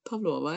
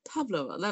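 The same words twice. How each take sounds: First: The stress is on the second syllable. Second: The stress is on the first syllable. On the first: The speaker calls it right. "Med trykk på O" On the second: The speaker calls it wrong. "jeg tror ikke de sier Pavlova"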